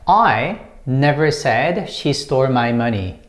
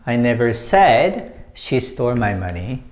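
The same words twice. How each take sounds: First: The stress falls on the word I. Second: The stress falls on the word said. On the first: Someone else said it. "the first one is I, and when you stress this one" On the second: It was only implied, not put into words. "when you put emphasis on said"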